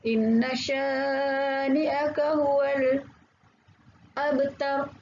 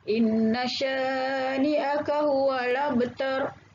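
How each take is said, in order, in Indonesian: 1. Ada jeda diam singkat sebelum 'abtar'. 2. 'Huwal' langsung menyambung ke 'abtar' tanpa jeda. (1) "Itu bacaan saktah" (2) "Wajah satu dia dia baca naqal"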